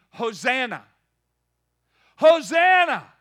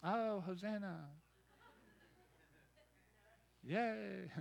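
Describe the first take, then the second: First: Loud, high rising shout of Hosanna; full-throated Hosanna shout; crowd yelling. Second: Soft, limp mock Hosanna; mumbled lazy cheer; half-hearted. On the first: Retold or imitated. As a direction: shout it like a crowd welcoming a king. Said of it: "they were yelling". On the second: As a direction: say it bored and unimpressed. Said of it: "They weren't just saying".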